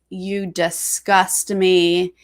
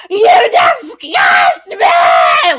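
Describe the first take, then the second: First: Slow, low, drawn-out mock drama; imitating Vic, heavy and slow; dramatic Vic quote. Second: High, loud imitated screaming cry; mock scream. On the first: Podcaster retelling Vic's house-meeting line, slow mock drama. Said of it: "in such a dramatic". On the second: Podcaster imitating Vic's screaming at Ro, hammed-up shout. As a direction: shout it like Vic losing it. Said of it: "crying and screaming at the same time".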